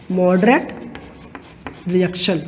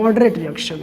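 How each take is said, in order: First: moderate rising, then a pause, then reaction low and falling; spaced, word by word. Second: Said in the usual way. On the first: Shown as a demonstration. Teacher repeating the new term for students, word by word. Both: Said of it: "उनको कहते हैं".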